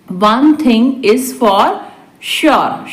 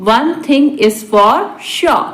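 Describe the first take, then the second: First: Deliberate, for learners; spaced-out repeat. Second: Said in the usual way. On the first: Shown as a demonstration. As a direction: hold back the last word. Teacher repeats translation word by word. (रुक-रुककर)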